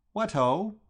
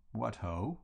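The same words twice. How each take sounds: First: Bright, loud, high "What ho?"; breezy cheerful hail; hearty greeting. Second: "What ho?" softer, level and listless; limp, deflated reply; dejected echo. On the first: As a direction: fling out "What ho" with a rising lift. Bertie greets Gussie heartily. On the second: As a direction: mumble "What ho" back without any spirit. Gussie answers dejectedly. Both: Acted.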